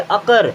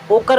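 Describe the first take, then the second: First: The first vowel sounds like 'uh'. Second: The first vowel sounds like 'oh'. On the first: The speaker calls it right. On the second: The speaker calls it wrong. "ओकर नहीं पढ़ेंगे"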